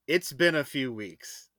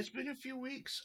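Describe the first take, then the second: First: Slow, pointed understatement; loaded understatement. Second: Mock-squeaky echo; high echo. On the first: Real, not acted. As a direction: say it slow and knowing. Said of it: "I'll just say that". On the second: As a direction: echo it back high and soft.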